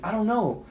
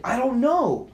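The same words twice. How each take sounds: First: Higher, tense reply; mildly exasperated retold reply; tense answer. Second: Much higher, insistent reply; frantic retold answer; exasperated. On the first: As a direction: answer edgily, not yet raised. First answer to anxious partner. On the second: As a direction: repeat it with mounting exasperation. Answer repeated, more exasperated.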